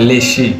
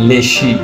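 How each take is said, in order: The two takes are said the same way.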